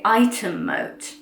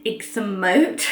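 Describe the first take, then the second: First: The name is pronounced quite unlike its spelling. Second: The name is pronounced following its spelling. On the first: The speaker calls it right. "So you actually say Ightham Moat" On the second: The speaker calls it wrong. "apparently you don't say Ixham Moat, I know that's how it's spelt"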